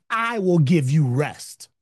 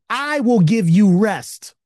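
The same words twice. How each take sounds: First: Said in the usual way. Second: "I will give you rest" slower, with "will" leaned on hard; louder emphatic quote. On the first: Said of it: "He said". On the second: Shown as a demonstration. Pastor quoting Jesus's promise to his congregation, stressing "will". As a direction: land the promise with full weight on "will". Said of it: "Jesus said".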